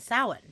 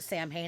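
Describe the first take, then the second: First: The word is pronounced differently from its spelling. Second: The word is pronounced the way it is spelled. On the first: The speaker calls it right. "It's fucking Samhain" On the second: The speaker calls it wrong. "that's how it looks like it's pronounced"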